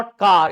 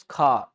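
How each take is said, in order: First: "car" with a clear final r, said loud; Hindi-style "car" with the r kept; r sounded. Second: Aspirated k in "car", long aa, silent r; r dropped. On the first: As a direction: pronounce the r ending "car". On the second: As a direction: let "car" end on the vowel, no r. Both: Shown as a demonstration. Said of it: "हल्का सा उच्चारण करना".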